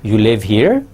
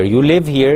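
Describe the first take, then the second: First: Statement turned question, "here" swept sharply upward; rising question tone. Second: Said in the usual way. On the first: Shown as a demonstration. Teacher turning "You live here" into a question, rising on "here". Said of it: "by asking it in rising tone". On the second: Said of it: "is a statement".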